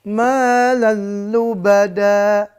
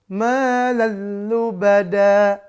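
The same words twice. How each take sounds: The two takes are said the same way.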